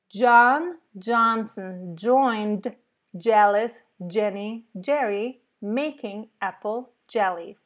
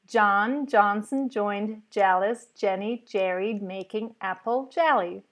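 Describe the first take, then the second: First: The sentence is said at a slow pace. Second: The sentence is said at a quick pace. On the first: "maybe even a little slower" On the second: "now we're going to do this a bit quicker"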